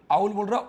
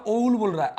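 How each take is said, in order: First: आउल with an open aa start; teacher showing the word owl as आउल; correct आउल. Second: ओउल with a rounded o start; mock the mistaken ओउल; teacher imitating a wrong reading of owl. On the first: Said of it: "जब आ बोलेगा तो आउल". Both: Shown as a demonstration.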